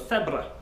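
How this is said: The first sound is a th sound, as in Spain.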